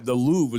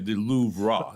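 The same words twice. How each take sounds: First: The word ends without any extra 'ruh' sound. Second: The word ends with an extra 'ruh' sound. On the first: This is the familiar way to say it. "the Louvre is the way I always learned it too" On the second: This is the newer, more French way to say it. "Now they say the Louvre"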